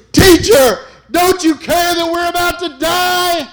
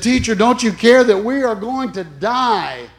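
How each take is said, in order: First: Screaming high and loud in terror; terrified disciples shouting at sleeping teacher; panicked shout. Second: Louder, higher frightened plea; a milder replay of the disciples' panic; panicked cry. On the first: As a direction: cry out as the boat sinks. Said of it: "they said to him". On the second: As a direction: plead in alarm. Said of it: "And they said". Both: Retold or imitated.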